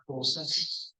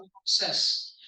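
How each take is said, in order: First: "process" as the verb, drawn out slowly; verb pronunciation. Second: "process" as the noun, stress on PRO; noun pronunciation. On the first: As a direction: demonstrate "process" as a doing word, slow and deliberate. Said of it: "if you're doing something". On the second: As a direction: demonstrate the noun "process", first syllable stressed. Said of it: "It's a noun". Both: Shown as a demonstration.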